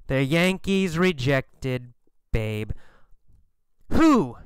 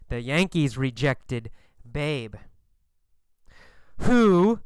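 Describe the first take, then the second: No difference in how they are said.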